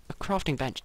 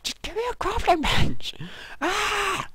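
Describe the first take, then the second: First: Said in the usual way. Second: Much higher, loud exasperated yell; frustrated scream. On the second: Real, not acted.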